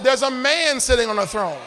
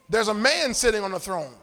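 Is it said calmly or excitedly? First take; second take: excitedly; calmly. First: It is said loudly with excited energy. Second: It is said in a calm, plain way.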